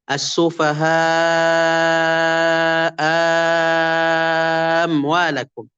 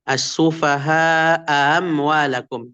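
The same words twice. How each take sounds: First: The second glottal stop becomes a long vowel. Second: The second glottal stop is softened, not fully pronounced. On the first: "ibdal saniyah, hamzah kedua diganti jadi huruf mad" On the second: "tashil saniyah ... itu yang pertama"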